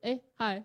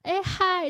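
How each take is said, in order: First: The greeting sounds flat and unexcited. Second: The greeting sounds bright, open and lively.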